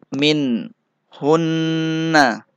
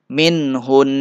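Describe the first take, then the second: First: The phrase ends with a short vowel after n. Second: The phrase ends on a slightly held n. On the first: The reading continues without stopping. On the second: The reader stops on this word.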